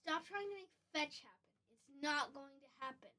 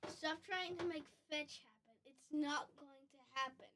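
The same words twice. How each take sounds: First: It is delivered in a very theatrical way. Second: It is delivered in a more restrained way.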